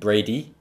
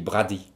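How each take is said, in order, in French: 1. Le nom se prononce avec des sons anglais. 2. Le nom se prononce avec des sons français. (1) "En anglais, on dit Brady" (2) "En français, je dis Brady"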